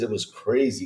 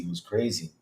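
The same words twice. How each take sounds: First: Said in the usual way. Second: Dropped much softer, an afterthought to himself; quiet echo. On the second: Real, not acted. Streamer echoing to himself that the week was crazy, softly. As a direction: let it fall away under the breath.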